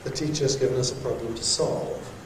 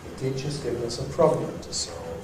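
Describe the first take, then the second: First: The main stress falls on the word solve. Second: The main stress falls on the word problem. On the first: The speaker calls it wrong. "you could say that, but it would be unusual" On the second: The speaker calls it right. "it remains on problem when we say it's a problem to solve"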